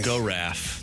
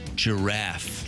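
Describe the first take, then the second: First: The word begins with a hard G sound. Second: The word begins with a soft J-like sound. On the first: The speaker calls it wrong. "Not go-raff" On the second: The speaker calls it right. "Giraffe starts with a G"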